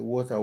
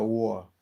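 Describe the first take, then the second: First: Said in the usual way. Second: "war" for water, middle T missing; dropped-T water. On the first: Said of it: "British people call". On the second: Shown as a demonstration. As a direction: swallow the T so water becomes "war". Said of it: "why do people say British people call".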